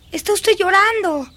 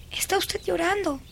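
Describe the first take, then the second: First: Higher, more insistent exclamation; insistent surprise. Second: Softer, tentative noticing; hushed realization. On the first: Girl confronts weeping governess, insistent surprise. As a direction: raise the pitch as it sinks in. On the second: Girl notices governess's tears, hushed. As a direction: say it softly as you notice. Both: Acted.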